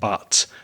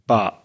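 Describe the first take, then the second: First: The word ends in a clear T. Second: The word ends in a glottal stop. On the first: "and not but" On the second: "my friends used that glottal stop. So they would say but"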